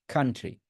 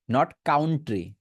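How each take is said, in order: First: Country as "KAN-tri"; first vowel a, kan-tri; correct country. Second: Country as "KAUN-tri"; wrong country. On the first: Teacher contrasts for students, correct "kan-tri". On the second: Teacher shows students what to avoid, "kaun-tri". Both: Shown as a demonstration.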